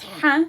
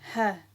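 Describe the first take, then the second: First: The H is forceful and strong. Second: The H is soft and easy. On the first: The speaker calls it wrong. "this forceful H sound, like this, it's wrong" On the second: The speaker calls it right. "this is the H sound that we have in English"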